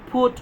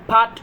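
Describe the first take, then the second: First: The vowel is a rounded 'oo' sound. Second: The vowel is an open 'uh' sound. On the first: The speaker calls it right. "এটাকে ফুট বলতে হবে" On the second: The speaker calls it wrong. "এটাকে ফাট বলা যাবে না"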